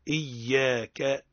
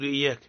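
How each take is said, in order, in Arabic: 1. صوت الياء مشدد والحركة ممدودة. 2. صوت الياء قصير ومفرد. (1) "تحقق الهمزة وتشدد الياء إيا وتمدلها" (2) "ماذا يقولون؟"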